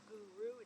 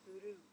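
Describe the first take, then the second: First: The R is a smooth American R. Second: The R is a quick tap like D. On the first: The speaker calls it wrong. "instead of Guru" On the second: The speaker calls it right. "it's Guru, like G O O D O"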